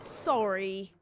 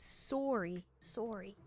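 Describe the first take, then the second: First: Said in the usual way. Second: "Sorry" with a rounded Canadian "sore-ee" vowel. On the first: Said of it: "Not like". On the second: Shown as a demonstration. Streamer contrasting it with the usual word, Canadian "Sorry" as "sore-ee".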